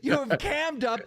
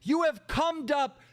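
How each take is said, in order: First: "cammed" said with the vowel of "cam"; "cammed" with a clear short a vowel; corrected vowel. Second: "cummed" said with the vowel of "come"; "cummed" with a short uh vowel; slip of the vowel. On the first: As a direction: say "cammed up", rhyming the first word with "jammed". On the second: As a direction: say "cummed up", rhyming the first word with "hummed". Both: Real, not acted. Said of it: "excuse me".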